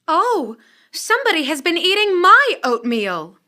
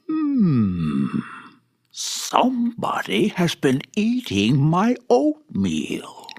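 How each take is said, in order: First: It is said in a middle-sized voice. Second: It is said in a big, gruff voice.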